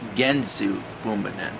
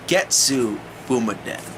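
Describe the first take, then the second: First: The first word is said as Gensu. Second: The first word is said as Getsu. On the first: The speaker calls it wrong. "not Gensu Fumaden" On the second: The speaker calls it right. "It's Getsu Fumaden"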